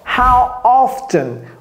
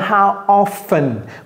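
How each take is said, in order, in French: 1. Le t dans often est prononcé. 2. Le t dans often est muet.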